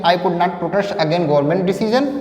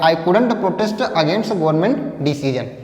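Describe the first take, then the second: First: 'Could not' is said as two full words. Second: 'Could not' is contracted into one word, couldn't. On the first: "आप यहाँ पे कुड नॉट भी बोल सकते हैं" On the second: "कुडंट थोड़ा contract कर दिया"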